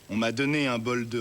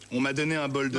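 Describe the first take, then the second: First: The line is spoken slowly and unhurriedly. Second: The line is spoken at a quicker pace. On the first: The speaker calls it right. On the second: The speaker calls it wrong.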